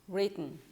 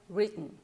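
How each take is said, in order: Both takes have the same delivery.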